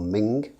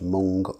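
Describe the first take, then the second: First: The vowel sounds like the one in 'bin'. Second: The vowel sounds like the one in 'bun'. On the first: "or Ming as I've heard it pronounced" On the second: "not Mung ... Mung of course is a bean"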